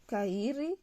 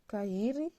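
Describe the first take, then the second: No difference in how they are said.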